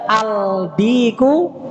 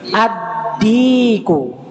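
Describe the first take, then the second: First: The L sound is clearly pronounced. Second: The L merges into a doubled D. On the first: The speaker calls it wrong. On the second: The speaker calls it right.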